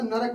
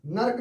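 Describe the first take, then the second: First: नरक in two syllables, "na-rak"; correct full form. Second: नर्क as one syllable, "nark"; wrong clustered form. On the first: Teacher giving the right word, नरक as "na-rak". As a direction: say नरक with a vowel between r and k. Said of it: "नरक होता है". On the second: Teacher rejecting the word, नर्क as "nark". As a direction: say नर्क with r running into k. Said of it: "नर्क नहीं होता". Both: Shown as a demonstration.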